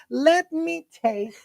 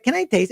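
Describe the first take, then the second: First: Very slow, high "Let me taste"; drawn-out insistence. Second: Said in the usual way. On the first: Shown as a demonstration. Boyfriend shows how he really asked, drawn-out insistence. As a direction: stretch each word of "Let me taste" insistently. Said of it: "It was more like". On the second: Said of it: "it wasn't like".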